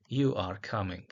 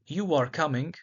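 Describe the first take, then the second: First: "You are coming" dipped lower, dry and mocking; sarcastic. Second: Said in the usual way. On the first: Shown as a demonstration. Teacher contrasting tones, sarcastic delivery. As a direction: let the doubt drip through. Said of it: "versus a sarcastic". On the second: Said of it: "a neutral".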